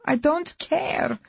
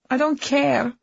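First: High, slow anguished repeat; slow anguished cry. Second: Loud, high angry outburst; angry shout. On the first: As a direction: drag it out in despair. Wife repeats it slower and higher. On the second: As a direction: snap it out in anger. Wife yelling in corridor argument. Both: Acted.

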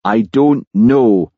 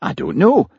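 First: Slow, heavy sulky denial; sullen, drawn-out reply; moody. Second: High-pitched exasperated reply; exasperated, rising denial. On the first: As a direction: drag it out moodily, louder and slower. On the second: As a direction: protest it, voice jumping up high. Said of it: "said Jimmy, looking exasperated". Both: Acted.

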